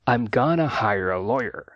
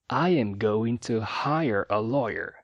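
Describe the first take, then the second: First: 'I am going to' is reduced to 'I'm gonna'. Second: Every word is said fully, with no reductions. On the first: "uma forma mais natural é I'm gonna" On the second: "sem reduções e de forma bem enunciada"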